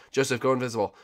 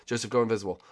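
The two takes are said the same way.

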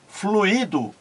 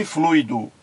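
First: "fluido" wrongly as flu-Í-do, stress on the i; mispronounced fluído. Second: "fluido" as FLUI-do, stress on the u; correct fluido. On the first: Retold or imitated. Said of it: "pronunciar várias vezes fluido em vez de". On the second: Shown as a demonstration. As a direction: say "fluido" in two syllables, ui glided. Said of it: "em vez de fluido".

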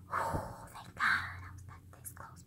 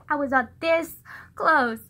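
First: Barely audible, breath-only whisper; relieved whisper. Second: Said in the usual way. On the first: Retold or imitated. Relieved after he walks away, secret whisper.

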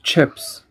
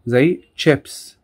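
First: Said in the usual way. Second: Slow careful chips; slow demo. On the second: Shown as a demonstration. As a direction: say chips slowly for the class. (نطق بطيء لكلمة chips)

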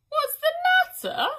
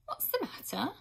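First: Very high, loud wailing repeat; a grieving nurse wails the question back; wailing echo. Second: Put-on a girl's curious question, just a bit higher; a hint of a young girl asking; lightly voiced girl. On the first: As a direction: throw the question back in a howl of grief. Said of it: "said the first woman". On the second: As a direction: ask it simply, like a curious girl. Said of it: "asked Odge". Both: A narrator's reading.

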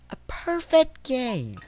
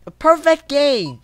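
First: Slow, softer echo; drawn-out repeat. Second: Exasperated exclamation. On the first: Player dwelling on the scorecard, drawn-out repeat. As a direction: draw the words out softly. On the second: Player reads out hopeless scorecard. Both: Real, not acted.

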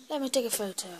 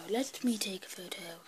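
First: Said in the usual way. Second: Whispered repeat of take a photo. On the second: Shown as a demonstration. Kid repeating his line to the camera as a whisper. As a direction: breathe it, no voice.

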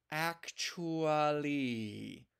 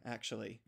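First: Actually stretched very slowly, savoring it; drawn-out name. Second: Said in the usual way. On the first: Retold or imitated. Noob marveling at the name, slow stretched Actually. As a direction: say Actually like a fancy new word. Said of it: "Wow, what a lovely human name". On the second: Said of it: "Actually. Wow, what a lovely".

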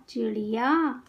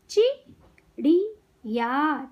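First: Said in the usual way. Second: चिड़िया very slowly in three separate parts; syllable by syllable. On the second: Shown as a demonstration. Teacher teaching kids to read, syllables apart. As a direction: break चिड़िया into चि - ड़ि - या. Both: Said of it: "शब्द पढ़ना सिखाऊंगी".

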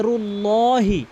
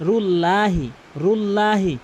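First: রুল্লাহি with a long, full "lo". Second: রুল্লাহি with a thin, short "la"; wrong thin la. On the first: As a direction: slowly stretch a dark "lo" in রুল্লাহি. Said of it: "এখানে হবে". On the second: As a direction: say a light "la" in রুল্লাহি. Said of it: "অধিকাংশ লোক কী বলে?". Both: Shown as a demonstration.

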